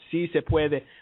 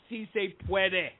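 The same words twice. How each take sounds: First: It is spoken with a native Spanish accent. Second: It is spoken with an American English accent. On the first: The speaker calls it right. "Actually, it's" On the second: The speaker calls it wrong. "I said it with an American accent"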